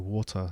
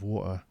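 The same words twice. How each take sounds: First: The T in the middle is clearly pronounced. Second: The T in the middle is dropped. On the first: "sometimes I do pronounce the T's" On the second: "I don't pronounce all of the T's"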